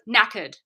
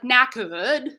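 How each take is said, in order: First: The final vowel is short, with no R wave. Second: The final vowel is drawn out with an R wave. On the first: The speaker calls it right. "at the end, I'm saying knackered, you'll hear" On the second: The speaker calls it wrong. "So I'm not gonna say"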